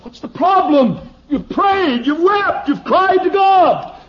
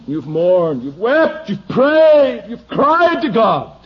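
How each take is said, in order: First: High, loud, slowed shout; shouted preaching. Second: Building to a loud, high cry; rising from firm to a loud high climax; preaching climax. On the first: Preacher shouting at his congregation, high and loud. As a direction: hammer the list out loud and high. Preacher repeats the climax louder. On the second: Preacher to the gluttonous, building loud and high. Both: Real, not acted.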